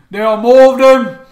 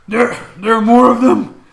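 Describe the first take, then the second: First: Loud, high Cockney British orc yell; Cockney orc shout. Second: Loud Cockney British orc yell; Cockney orc shout. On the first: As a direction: belt it out in full Cockney British. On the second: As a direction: bellow it in a Cockney British accent. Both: Acted. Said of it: "Cockney British accent".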